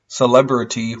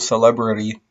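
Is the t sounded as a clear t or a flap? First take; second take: clear t; flap. First: The t is a clear t sound. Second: The t is a quick r-like flap.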